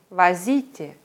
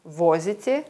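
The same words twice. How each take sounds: First: Возите said va-ZI-te, the O reduced to A; возите with the second syllable stressed. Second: Возите said VO-zi-te, clear stressed O; Возите with the first syllable stressed, full O. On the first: Teacher contrasting verb forms, second-syllable stress. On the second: Teacher contrasting verb forms, first-syllable stress. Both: Shown as a demonstration. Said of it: "bei Verben verschiedene konjugierte Formen".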